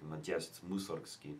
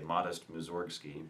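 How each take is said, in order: First: The name is said with Russian pronunciation. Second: The name is said with English pronunciation. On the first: "in Russian I think it's more like" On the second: "in English we say"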